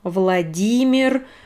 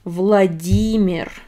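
First: The stress falls on the 'ee' sound. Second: The stress falls on the 'ee' sound.

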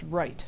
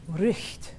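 First: It ends plainly, without a throaty h-like sound. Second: It has a throaty h-like sound before the end. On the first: This is how the name is said today. "my name is pronounced Wright" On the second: This is the older, original way to say the name. "It should be Richt"

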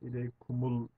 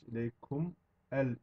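First: The two words are joined into one. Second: The two words are said separately. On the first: "okunurken ileykumul diye okunuyor" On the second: "İleykum el imane şeklinde olacakken"

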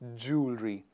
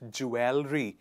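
First: The word is said as two syllables, like 'jool-ree'. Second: The word is said with an extra syllable, like 'jool-er-ee'. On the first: The speaker calls it right. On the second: The speaker calls it wrong.

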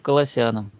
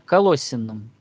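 First: The stress falls on a later syllable. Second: The stress is on the second syllable. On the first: "я чаще всего слышу Колоссянам" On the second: "На второй О ударение"

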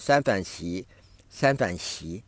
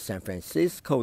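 First: It is said with Chinese-style syllables. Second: It is said with English-style syllables. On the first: The speaker calls it wrong. "我们中国人就喜欢用三反席" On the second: The speaker calls it right. "你为什么不改过来用San Francisco 呢"

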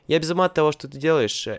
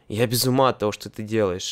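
First: It is said with strong, lively emotion. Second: It is said flatly, without emotion. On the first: The speaker is delighted by what the other person does. "it should be with really emotional" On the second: The speaker does not like what the other person does. "it means that I'm some... I don't like it"

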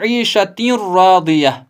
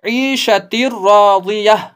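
First: The n is pronounced separately before the r. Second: The n merges fully into a doubled r. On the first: The speaker calls it wrong. "न कि" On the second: The speaker calls it right. "इदगाम बिला गुन्ना"

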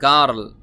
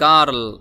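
The two takes are said the same way.

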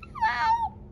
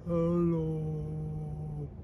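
First: It is said in a very high voice. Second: It is said in a very low voice.

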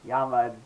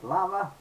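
First: It is said with the original Spanish pronunciation. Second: It is said with an English pronunciation.

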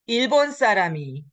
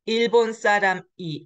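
First: The final consonant carries over into the particle. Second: A pause separates the noun from the particle. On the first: The speaker calls it right. "The final consonant carries over for the liaison pronunciation rule" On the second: The speaker calls it wrong. "the way you should read it is not"

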